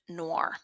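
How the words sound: It is said with an English pronunciation. "English speaking people pronounce it noir"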